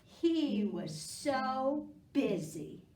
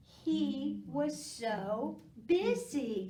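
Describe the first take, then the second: First: Slow with 'He' stressed; emphatic refrain. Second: Slow, stressed 'busy' falling; emphatic refrain. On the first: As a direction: lead the class in "He was so busy". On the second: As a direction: stretch out "He was so busy" with kids. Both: Shown as a demonstration. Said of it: "Help me out".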